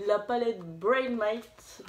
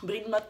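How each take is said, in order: First: "Brain Matte" drawn out slowly, syllable by syllable; carefully spelled-out name. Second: "Brain Matte" said the French way, "brède matte"; French pronunciation. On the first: (prononcer « Brain Matte » lentement, en détachant bien) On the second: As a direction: give "Brain Matte" a plain French sound. (« Brain Matte » prononcé à la française) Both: Shown as a demonstration. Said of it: "en français, hein".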